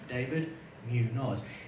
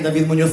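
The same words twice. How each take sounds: First: The name is said with an anglicised Australian pronunciation. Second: The name is said with a Spanish pronunciation. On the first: "that's the Australian anglicised pronunciation" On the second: "when you say my name in Spanish"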